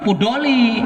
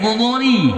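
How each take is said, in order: First: The name begins with a p sound. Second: The name begins with an f sound. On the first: The speaker calls it wrong. "jangan Pudoli" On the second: The speaker calls it right. "disesuaikan dengan makhrajnya"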